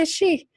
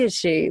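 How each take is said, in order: First: It is spoken in an Irish accent. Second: It is spoken in a Southern American accent. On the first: "an Irish lady might say" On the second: "a Southern person would be like"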